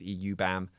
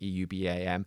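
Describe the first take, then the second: First: The acronym is said quickly as one word. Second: The acronym is spelled out letter by letter.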